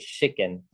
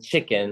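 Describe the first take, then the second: First: The word begins with an 'sh' sound. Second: The word begins with a 'ch' sound.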